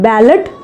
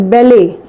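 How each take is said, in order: First: The word ends with a 'lot' sound. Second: The word ends with a 'lay' sound. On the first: The speaker calls it wrong. "this is called as not ballot" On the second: The speaker calls it right. "this is called as ballet"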